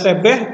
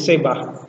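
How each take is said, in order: First: The second vowel is an e sound. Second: The second vowel is an a sound. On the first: "biasanya sebeh" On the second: "tetapi menjadi sebah"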